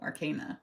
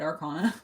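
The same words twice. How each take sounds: First: The middle syllable sounds like 'cane'. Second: The middle syllable sounds like 'con'. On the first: It follows the word arcane, meaning secret. "I always say arcana because like it comes from the word arcane" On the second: It is how English people would say it. "if you're English ... they probably would have said arcana"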